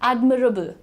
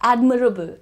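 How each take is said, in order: No difference in how they are said.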